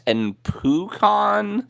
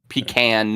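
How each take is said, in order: First: Pronounced the way Southerners say the word. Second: Pronounced the way northeasterners say the word. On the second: "northeast, east coast"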